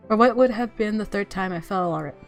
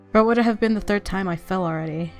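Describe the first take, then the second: No difference in how they are said.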